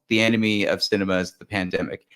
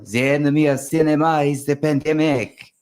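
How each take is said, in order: First: It is said in the speaker's ordinary accent. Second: It is said in a put-on French accent.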